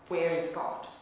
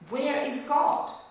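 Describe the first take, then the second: First: It is said at a moderate, normal volume. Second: It is said a little louder than normal.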